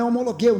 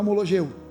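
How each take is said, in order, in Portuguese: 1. O g é duro, como em 'go'. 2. O g é suave, como o som 'zh'. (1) "só tem som de G, então é homologeu" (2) "não é homologeu"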